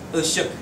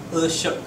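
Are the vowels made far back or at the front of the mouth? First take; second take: back; back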